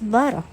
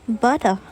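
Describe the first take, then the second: First: The middle consonant is a North American flap. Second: The middle consonant is a hard T sound.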